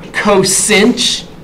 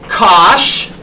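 First: It is said as two syllables. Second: It is said as one short syllable. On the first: "Some people pronounce it, you know" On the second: "Cosh is how I pronounce it"

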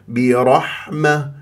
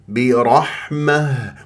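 The two takes are said the same way.

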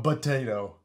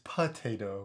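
First: The first sound is a soft B. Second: The first sound is a clear P. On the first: The speaker calls it wrong. "it sounds like you say it with a B" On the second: The speaker calls it right. "It's potato with a P"

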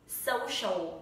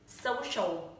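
No difference in how they are said.

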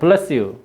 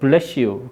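First: It is said in a standard accent. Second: It is said in a Chungcheong dialect accent. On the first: The speaker calls it right. "따라요" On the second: The speaker calls it wrong. "충청도 애들은 잘못 발음하죠"

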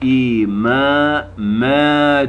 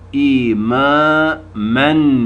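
First: The word ends with a long vowel. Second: The word ends with an n sound. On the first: This is the form used when stopping. "diye duruluyor" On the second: This is the written form. "yazıyor"

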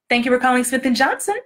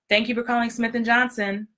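First: The voice sounds warm, with a smile. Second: The voice sounds flat, with no smile. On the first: The speaker calls it right. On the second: The speaker calls it wrong.

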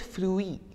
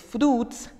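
First: The word is pronounced with French sounds. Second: The word is pronounced with English sounds. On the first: "and in French, it's fruit" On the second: "In English, it's fruits"

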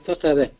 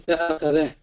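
First: The glottal stop after 'fa' is dropped. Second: The glottal stop after 'fa' is pronounced. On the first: The speaker calls it wrong. "لا نستطيع أن نقول فخذه" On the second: The speaker calls it right. "عندما نضيف الفاء فنقول فأخذه"

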